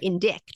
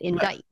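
First: The word ends with a k sound then t. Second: The word ends with a plain t, no k. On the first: The speaker calls it wrong. "you don't pronounce it indict" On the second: The speaker calls it right. "You pronounce it indict"

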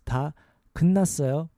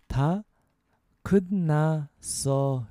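First: It is said at a faster pace. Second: It is said at a slower pace.

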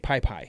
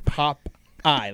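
First: Both syllables are said as 'pie'. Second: The syllables are said as 'pop' and 'eye'. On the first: This is how a small child said it. The speaker calls it wrong. "I would always say pie pie" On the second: This is the intended pronunciation. The speaker calls it right. "I couldn't say pop eye"

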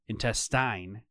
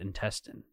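First: The final syllable follows the spelling with final E. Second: The final syllable has a short reduced vowel. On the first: The spelling suggests this pronunciation. The speaker calls it wrong. "that E at the end makes me think it's intestine" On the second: This is how most people say it. The speaker calls it right. "but people pronounce it intestine"

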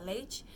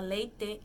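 First: The final vowel is reduced in natural speech. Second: The final vowel is fully pronounced as written. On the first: The speaker calls it right. "a gente fala leite" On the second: The speaker calls it wrong. "ninguém fala leite"

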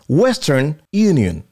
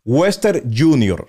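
First: The second word begins with a 'y' sound. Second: The second word begins with a 'j' sound. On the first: The speaker calls it right. "es Western Union, de Unión" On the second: The speaker calls it wrong. "no se dice así. Eso está incorrecto"

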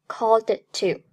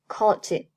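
First: The d sound is clearly released before 'to'. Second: The d sound is held without release before 'to'. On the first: The speaker calls it wrong. "不读作called to" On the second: The speaker calls it right. "Called 爆破音d 失去爆破"

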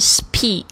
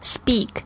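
First: The sound after s is a strong puffed p. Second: The sound after s is soft, like b. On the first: The speaker calls it wrong. "而不是speak" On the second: The speaker calls it right. "比如说像speak 说话speak"

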